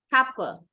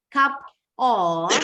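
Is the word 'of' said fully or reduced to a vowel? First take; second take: reduced; full. First: The word 'of' shrinks to a weak vowel. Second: The word 'of' is said fully and separately. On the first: "to sound more like a native English speaker, pronounce this phrase as cup" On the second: "cara gampang pengucapannya cup of"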